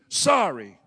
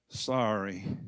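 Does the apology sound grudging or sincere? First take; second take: grudging; sincere. First: It sounds grudging and insincere. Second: It sounds softer and sincere.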